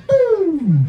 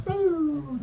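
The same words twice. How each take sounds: First: High, loud, drawn-out boom; whooshing boom. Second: Lighter cartoon zoom-away sound; cartoon boom. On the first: Retold or imitated. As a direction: send it flying off with a loud boom. Imitates migraine shooting away. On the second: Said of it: "Like watching a cartoon now".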